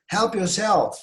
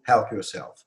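First: High-pitched, projected invitation; exclamation. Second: Said in the usual way. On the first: Shown as a demonstration. Teacher shows the sound required, exclaimed. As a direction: HELP YOURSELF cried out high. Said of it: "Böyle bir ses çıkarmanız".

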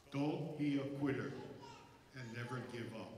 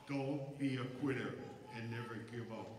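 Both takes have the same delivery.

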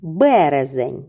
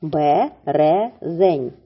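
First: Slow model word. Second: "Березень" stretched very slowly, sound by sound; very slow word. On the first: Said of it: "чи правильно я склала схему". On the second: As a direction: draw out "Березень" so each sound is heard. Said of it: "схему цього слова". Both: Shown as a demonstration.

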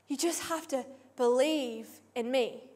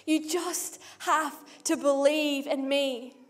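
First: Much softer, intimate assurance; softer, plain pace. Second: Slow, deliberate, each word weighed; slow emphatic repeat. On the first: Preacher voicing Jesus answering the crowd, much softer. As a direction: say it quietly, close to the listener. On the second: Preacher repeating Jesus' answer to the crowd, slow and deliberate. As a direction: stretch it out to let it land. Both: Acted.

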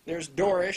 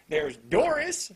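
First: Said in the usual way. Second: "Doris" stretched slow, higher and louder; drawn-out emphasis. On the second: Shown as a demonstration. Reviewer pointing out the D names, slow loud "Doris". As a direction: lean on "Doris" to make the D obvious.

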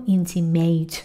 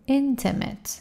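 First: "intimate" said wrongly as "intimed", with a full i in the middle; the wrong way: "intimate" as "in-ti-med"; wrong pronunciation. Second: "Intimate." said as "in-te-met", weak middle vowel and falling tune; right pronunciation. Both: Shown as a demonstration. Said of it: "نگو intimate".

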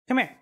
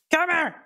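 First: Said in the usual way. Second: Louder call. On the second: Real, not acted. Calling the cat louder.

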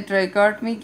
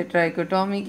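First: Trichotomy said as "try-KART-mee"; trichotomy with a "kart" middle, running straight into "mee"; variant pronunciation. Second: Trichotomy said as "try-ko-TOH-mee"; trichotomy with separate "ko" and "to" sounds; alternative pronunciation. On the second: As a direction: give trichotomy four full syllables, try-ko-to-mee. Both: Shown as a demonstration. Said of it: "कुछ लोग इसे trichotomy कहते हैं".

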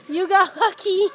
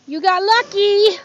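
First: Laughing cheer. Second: Loud, slow, happy cheer to the dog; delighted cheer. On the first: Rescuer repeating to the dog through a laugh. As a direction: still loud, a laugh breaking in mid-word. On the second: Rescuer cheering the shelter dog, loud and slow. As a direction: cheer the dog's good fortune. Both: Real, not acted.

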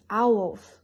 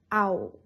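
First: "owls" as ow-wols, both syllables heard; two joined syllables. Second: "ow" with no "wo" sound behind it; cut-off ending. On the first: Teacher shows how some people say it, "owls" in two connected syllables. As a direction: sound the second syllable "wol" in "owls". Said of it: "Two syllables connect together". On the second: Teacher shows how certain people say owl, cut off as "ow". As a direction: say "ow" and leave off the closing l. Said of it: "without the bu behind". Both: Shown as a demonstration.

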